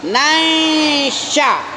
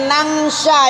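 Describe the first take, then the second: First: The n blends softly and nasally into sh. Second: The n is pronounced as a clear ng. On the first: The speaker calls it right. "Tapi nansya. Tanwin kamu samar, shin kamu samar" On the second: The speaker calls it wrong. "Nggak boleh nangsya ya"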